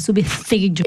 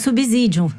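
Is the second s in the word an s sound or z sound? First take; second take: s sound; z sound. First: The second s is a voiceless hissing s. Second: The second s is voiced like a z. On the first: The speaker calls it right. "Não, é subsídio" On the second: The speaker calls it wrong. "você falou subsídio"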